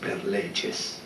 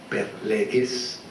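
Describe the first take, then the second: First: It is said in Italian church Latin style. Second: It is said in German scholarly Latin style. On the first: "en cambio nosotros en Italia decimos per leges" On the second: This follows the tradition of German scholars. "la pronunciación del latín que viene de los estudiosos alemanes, que dicen per leges"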